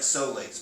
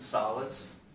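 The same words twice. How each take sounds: First: The word is pronounced the way its spelling suggests. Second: The word is pronounced the standard way. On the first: The speaker calls it wrong. "It looks like solace, but it's not. If you say that like that, you're going to look dumb" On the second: The speaker calls it right. "It's solace"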